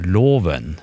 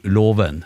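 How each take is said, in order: First: Loven with tonelag one, single tone; slow loven in tone one. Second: Låven with tonelag two, double tone; låven sung in tone two. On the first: Teaching pitch accent, loven with tone one. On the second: Teaching pitch accent, låven with tone two. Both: Shown as a demonstration. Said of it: "tonegangen i gjennom det ordet".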